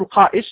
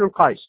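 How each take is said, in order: First: A glottal stop is heard in the middle. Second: A y-glide replaces the middle glottal stop. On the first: This is the original form of the word. "الأصل القائس" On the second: This is a lightened form of the word. "قد تخفف الهمزة فيقال القايس"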